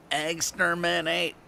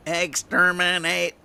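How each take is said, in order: First: High, slow Dalek voice at normal level; lightly voiced Dalek repeat, trailing off; a hint of the Dalek, slow and high; Dalek, softer. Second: High, slow, loud robotic Dalek chant; mock Dalek screech, drawn out. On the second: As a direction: grind it out like a Dalek. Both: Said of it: "And it was a Dalek".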